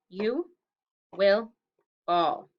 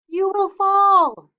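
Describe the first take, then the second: First: It is said calmly, at normal loudness. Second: It is said loudly, like a warning yell.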